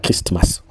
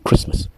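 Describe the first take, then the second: First: The t in the middle is pronounced. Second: The t in the middle is silent. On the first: The speaker calls it wrong. "on ne dit pas Christmas" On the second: The speaker calls it right. "on dit Christmas"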